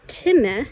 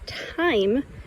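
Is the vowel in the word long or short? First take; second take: short; long. First: The vowel is a short i sound. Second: The vowel is a long i sound. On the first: The speaker calls it wrong. "this word is not time" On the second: The speaker calls it right. "the E makes the I say its name"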